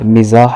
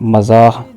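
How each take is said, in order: First: The first vowel is an 'i' sound. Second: The first vowel is an 'a' sound. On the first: The speaker calls it right. "मीम के नीचे ज़ेर है" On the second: The speaker calls it wrong. "लफ्ज़ बोलते हैं"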